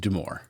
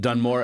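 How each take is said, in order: First: No n sound comes before the m. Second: An n sound comes before the m. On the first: The speaker calls it right. "but it is Dumore" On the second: The speaker calls it wrong. "I accidentally pronounced it Dunmore at the start"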